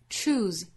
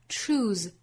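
Both takes have the same delivery.

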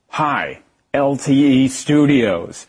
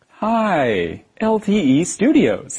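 First: The voice sounds flat and unfriendly. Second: The voice sounds warm and friendly. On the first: The speaker calls it wrong. "Don't answer in an angry or sad voice" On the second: The speaker calls it right. "Say it in a friendly voice"

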